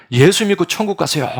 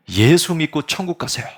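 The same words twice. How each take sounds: First: Loud and much higher, ringing cry; preacher shouting even harder from the pulpit; louder pulpit shout. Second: Loud, higher preacher's cry; young preacher shouting to the congregation from the pulpit. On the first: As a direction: belt it out as hard as you can. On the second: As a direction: call it out to the whole congregation. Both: Acted. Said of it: "이렇게 소리를 지르는 거야".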